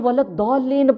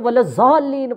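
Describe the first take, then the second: First: The consonant sounds like a heavy d. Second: The consonant sounds like a z. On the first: "ये वलद दौलीन पढ़ता नहीं है" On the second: "ये वलद ज़ालीन पढ़ता है"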